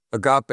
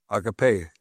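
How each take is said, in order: First: "agape" said uh-GAH-pay; agape pronunciation. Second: "agape" said AH-guh-pay; alternative agape pronunciation. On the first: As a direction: stress the middle syllable of "agape": uh-GAH-pay. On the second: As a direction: open "agape" on a full AH, light middle syllable. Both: Shown as a demonstration. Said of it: "We pronounce it agape".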